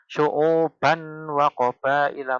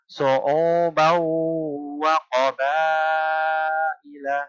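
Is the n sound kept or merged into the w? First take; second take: kept; merged. First: The n sound is kept before the w. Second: The n sound merges into a doubled, nasal w. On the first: The speaker calls it wrong. "bukan seperti itu" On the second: The speaker calls it right. "langsung baknya masuk ke huruf waw"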